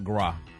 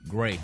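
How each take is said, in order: First: The syllable has a short, open 'ah' vowel. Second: The syllable has the vowel of 'day'. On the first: The speaker calls it wrong. "not gra" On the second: The speaker calls it right. "Gray, not gra"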